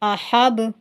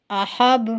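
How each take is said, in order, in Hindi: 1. आखिरी व्यंजन एक छोटे स्वर के साथ उछलता है। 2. आखिरी व्यंजन एक छोटे स्वर के साथ उछलता है।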